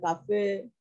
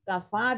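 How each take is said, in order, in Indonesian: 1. Vokal akhir bergeser ke arah e. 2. Vokal akhir adalah a terbuka biasa. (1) "waras baca fathah dan taklil" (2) "waras baca fathah dan taklil"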